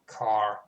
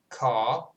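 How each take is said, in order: First: The R after the vowel is pronounced. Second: The R after the vowel is dropped. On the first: "there you have it. It's a rhotic variant" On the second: "That is a non-rhotic one"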